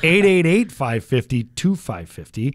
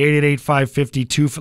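First: The number is said slowly. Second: The number is said fast.

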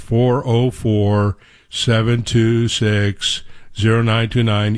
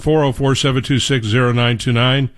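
First: The number is said slowly. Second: The number is said at normal speed.

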